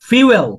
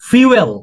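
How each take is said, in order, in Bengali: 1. শব্দটি 'fyoo' ধ্বনি দিয়ে শুরু হয়। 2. শব্দটি 'fyoo' ধ্বনি দিয়ে শুরু হয়।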